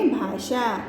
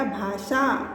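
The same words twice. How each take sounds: First: "भाषा" with a clear sh, "bhaashaa"; correct pronunciation. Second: "भाषा" with s in the middle, "bhaasaa"; incorrect form. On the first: Teacher shows students the difference, correct pronunciation. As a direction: slowly sound the ष in "भाषा" as sh. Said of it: "अंतर आता है". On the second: Teacher contrasts the misspelt word for students, incorrect form. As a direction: slowly say "भाषा" with a plain s. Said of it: "जब शुद्ध उच्चारण हम इसका करेंगे". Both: Shown as a demonstration.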